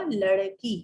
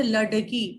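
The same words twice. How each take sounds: First: "लड़की" with flapped R; "larkee", flap instead of D in "लड़की"; correct form. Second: "लड़की" with hard D, "ladkee"; plain D sound in "लड़की"; dotless spelling. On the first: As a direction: flick the tongue in "लड़की". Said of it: "शुद्ध रूप क्या बन जाएगा". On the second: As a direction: stop the tongue in "लड़की". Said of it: "ये ल ड की है". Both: Shown as a demonstration.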